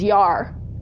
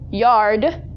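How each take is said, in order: First: The final D sound is dropped. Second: The final D sound is pronounced.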